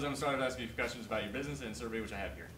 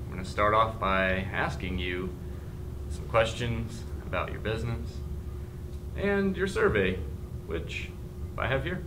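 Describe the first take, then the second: First: It is read very fast. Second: It is read very slowly.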